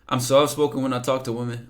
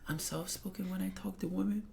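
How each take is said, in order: First: It is read in his normal voice. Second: It is read in a put-on imitating voice.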